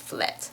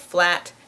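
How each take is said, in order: First: The vowel is changed to an 'eh' sound. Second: The vowel is an open 'a' sound. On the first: The speaker calls it wrong. "That's the way that a Dutch speaker pronounces the English word flat" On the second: The speaker calls it right. "in English, we say flat"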